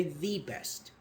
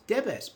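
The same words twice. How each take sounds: First: "the best" with the said as long "thee"; emphatic "thee". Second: "the best" with the said as short "duh"; short unstressed the before best; normal weak "the". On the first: Teacher contrasts the emphatic form, "thee best". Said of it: "but we say the best". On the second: Teacher shows the normal form, weak "the". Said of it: "Be is consonant". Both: Shown as a demonstration.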